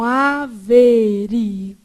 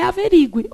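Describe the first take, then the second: First: "averigue" slow and low, a-ve-ri-GU-e, U and E split; syllable by syllable. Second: "averigue" run together quickly, stress on RI, gue as one syllable; common mispronunciation. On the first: Teacher showing the hiatus to the class, syllable by syllable. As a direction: break "averigue" into five syllables, stressed U before a separate E. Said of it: "Só que a gente lê errado". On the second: Teacher citing what everyone wrongly says, common mispronunciation. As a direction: say "averigue" as a-ve-RI-gwe. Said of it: "por que que todo mundo fala averigue".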